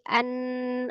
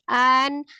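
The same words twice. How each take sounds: First: The n is held with a long nasal hum. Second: The vowel is raised, with no nasal hold. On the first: The speaker calls it right. "dia gunnah kan nunnya" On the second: The speaker calls it wrong. "jangan naik"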